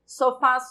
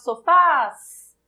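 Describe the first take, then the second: First: Said in the usual way. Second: Sofás with a long, loud "fás"; stress on final syllable. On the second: Shown as a demonstration. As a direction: call out sofás, holding the last syllable. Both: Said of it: "O fás é a sílaba tônica".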